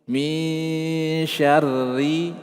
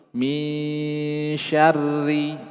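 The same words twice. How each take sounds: No difference in how they are said.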